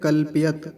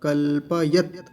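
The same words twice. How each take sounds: First: The p sound is clipped without its vowel. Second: The p sound is full with its vowel. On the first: The speaker calls it wrong. "इस प जो है इसको आधा करके कैसे बोलते हैं" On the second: The speaker calls it right. "पकार पूरा है"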